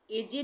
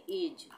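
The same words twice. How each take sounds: First: "ए जे" with the final e sounded; wrong pronunciation. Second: "एज" as one syllable; silent e. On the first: Teacher shows what not to read, final e voiced in "ए जे". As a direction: say "ए जे" in two syllables. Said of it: "ए जे नहीं पढ़ेंगे". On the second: Teacher models the right reading, silent e in "एज". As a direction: end "एज" on the j, no final e. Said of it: "इसको ई silent हो जाएगा". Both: Shown as a demonstration.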